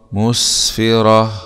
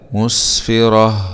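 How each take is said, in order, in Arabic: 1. تنتهي الكلمة بصوت هاء موقوف عليه. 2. تنتهي الكلمة بصوت هاء موقوف عليه.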